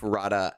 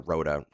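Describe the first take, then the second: First: The first vowel sounds like 'ah'. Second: The first vowel sounds like 'oh'. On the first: The speaker calls it right. "it is Rada, I think" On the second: The speaker calls it wrong. "or Rhoda technically"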